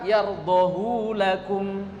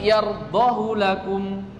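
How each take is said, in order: First: The vowel of 'hu' is lengthened. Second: The vowel of 'hu' is kept short. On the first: The speaker calls it wrong. "Tidak dibaca" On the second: The speaker calls it right. "tidak dibaca madsilah, dibaca pendek"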